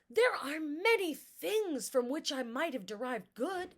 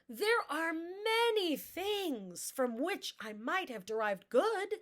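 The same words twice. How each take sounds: First: Speed, tone and intensity stay fairly even and natural. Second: Speed, tone and intensity vary in an exaggerated way.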